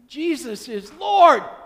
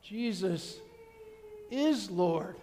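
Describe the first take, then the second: First: It sounds confident and glad. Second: It sounds shocked and dismayed. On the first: The speaker expected this and welcomes it. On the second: The speaker realizes too late what has been lost. "they're going to say it much differently"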